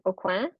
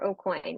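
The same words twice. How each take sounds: First: The name is said with French pronunciation. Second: The name is said with English pronunciation. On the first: "which is the French way" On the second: "which is the um, anglicized sort of way of saying it"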